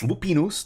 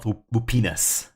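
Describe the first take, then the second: First: The final syllable has an 'oo'-like vowel. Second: The final syllable has an 'ah'-like vowel. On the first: The speaker calls it right. "make sure I'm saying Lupinus. It's Lupinus" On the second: The speaker calls it wrong. "not Lupinas. ... That sounds terrible"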